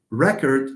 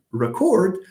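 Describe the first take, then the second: First: "record" with the first syllable stressed. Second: "record" stressed on a higher second syllable. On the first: Teacher repeating the noun example, first-syllable stress on "record". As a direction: punch the opening syllable of "record". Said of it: "record is the noun". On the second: Teacher repeating the verb example, second-syllable stress on "record". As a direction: lift and weight the last syllable of "record". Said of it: "the verb is to record". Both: Shown as a demonstration.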